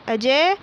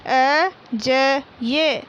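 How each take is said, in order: First: Said in the usual way. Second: अजय stretched very slowly, each syllable drawn out; slow syllable reading. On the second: Shown as a demonstration. Teacher sounding out अजय for young pupils, very slowly. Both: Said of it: "बोल बोल कर पढ़ेंगे".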